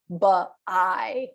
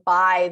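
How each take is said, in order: First: An extra vowel syllable comes after the b. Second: The b flows straight into the vowel. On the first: The speaker calls it wrong. "they don't give it an extra syllable" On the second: The speaker calls it right. "instead of saying by"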